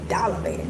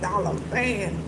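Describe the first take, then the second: First: It is said fast, blurring into one word. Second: It is said at a slower, normal pace.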